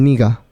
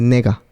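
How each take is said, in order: First: The first vowel sounds like 'i'. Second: The first vowel sounds like 'e'. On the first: "a veces se escucha el niga" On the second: "en vez de nega"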